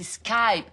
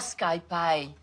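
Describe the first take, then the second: First: The word is said with one syllable. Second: The word is said with two syllables. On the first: The speaker calls it right. "C'est Skype" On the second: The speaker calls it wrong. "Pas SkyPie"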